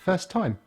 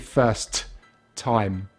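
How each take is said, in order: First: The t at the end of first is dropped. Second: The t at the end of first is pronounced. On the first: The speaker calls it right. "We drop one of the T's" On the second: The speaker calls it wrong. "So we don't say first time"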